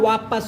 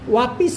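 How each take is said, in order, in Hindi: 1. दूसरे अक्षर में 'a' स्वर है। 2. दूसरे अक्षर में 'i' स्वर है। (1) "होता है" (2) "नहीं होता"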